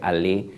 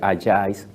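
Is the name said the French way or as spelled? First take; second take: French; as spelled. First: It is said with the French pronunciation. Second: It is read letter by letter, as spelled. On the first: "pero se pronuncia Allais" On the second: "se escribe Allais"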